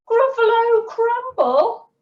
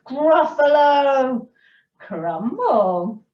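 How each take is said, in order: First: Very high, loud mock-horrified squeal; Gruffalo's alarm. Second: Drawn-out dish name at storyteller's pitch; mouse's teasing threat. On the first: Gruffalo fears being eaten, high loud acted alarm. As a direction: echo it in horror, pitched right up. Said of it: "the Gruffalo said". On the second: Mouse threatens to eat the Gruffalo, measured acted threat. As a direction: savour it as the mouse's menu. Mouse names favourite food menacingly. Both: A narrator's reading.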